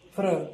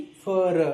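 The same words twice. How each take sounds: First: फ्र said as one tight cluster, no vowel between f and r; blended fr. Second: फर with a short a vowel pushed between f and r; wrong fr. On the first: Teacher showing kids the right fr blend. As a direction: glide f straight into r in फ्र. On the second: Teacher showing kids the wrong fr sound. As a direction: split it wrongly as फर with a vowel inside. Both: Shown as a demonstration. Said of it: "फ्र ना कि फर".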